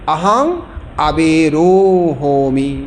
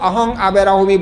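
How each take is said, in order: First: The syllable before 'hmi' has an 'o' vowel. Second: The syllable before 'hmi' has an 'a' vowel. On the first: The speaker calls it right. "তারা বলবে আহং আবে রোহমি" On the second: The speaker calls it wrong. "পালি ব্যাকরণ জানলে কেউ আহং আবে রাহমি বলবে না"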